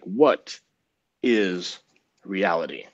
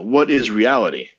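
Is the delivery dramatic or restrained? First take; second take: dramatic; restrained. First: It is said in a very dramatic way. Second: It is said in a restrained, less dramatic way.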